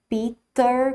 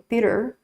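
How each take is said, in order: First: The t is a strong, hard t. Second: The t is a soft tap, final r curled. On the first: "com esse T, né, forte" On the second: "o R bem enrolado no final"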